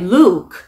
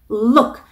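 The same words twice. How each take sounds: First: The vowel is drawn out long. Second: The vowel is clipped short. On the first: It sounds like the name Luke. The speaker calls it wrong. "좀 길게 look 이런 식으로 발음했을 때에는 사람 이름 Luke" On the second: It means the verb look. The speaker calls it right. "look 짧게 하는 거 발음 연습해 주시고요"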